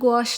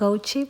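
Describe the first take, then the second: First: It is one syllable ending in 'sh'. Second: It is two syllables ending in 'chee'. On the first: The speaker calls it right. "അങ്ങനെയല്ല അതിൻ്റെ യഥാർത്ഥ pronunciation" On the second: The speaker calls it wrong. "ഞാൻ ഗൗച്ചി paint എന്നാണ് പറയാറ്"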